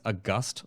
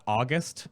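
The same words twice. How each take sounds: First: "August" stressed on the second syllable; correct pronunciation. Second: "August" stressed on the first syllable; wrong pronunciation. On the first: Host correcting the Celestials' name for viewers, correct pronunciation. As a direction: say "August" as uh-GUST, ending on GUST. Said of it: "It's August Celestials". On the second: Host showing viewers how not to say the name, wrong pronunciation. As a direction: say "August" as AW-gust, like the month. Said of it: "not August Celestials". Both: Shown as a demonstration.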